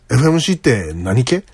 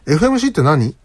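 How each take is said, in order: First: Toyama-dialect question ending in 何系; tentative attempt at a Toyama accent. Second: Said in the usual way. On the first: Shown as a demonstration. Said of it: "アクセントが合ってるかどうかわかりますけど". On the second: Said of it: "けがよくつきます。".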